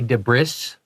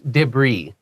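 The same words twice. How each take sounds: First: The final s sound is pronounced. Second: The final s sound is silent. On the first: The speaker calls it wrong. "That's why we don't say debris" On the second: The speaker calls it right. "So it's debris"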